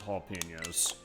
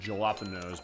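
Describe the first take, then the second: First: The word is pronounced differently from its spelling. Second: The word is pronounced letter by letter as spelled. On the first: The speaker calls it right. "but no, it's jalapenos" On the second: The speaker calls it wrong. "If I'm gonna pronounce it as it actually looks"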